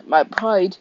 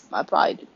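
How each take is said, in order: First: Cracking squeak on "My pride.". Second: Said in the usual way. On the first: Acted. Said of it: "that was a major voice crack".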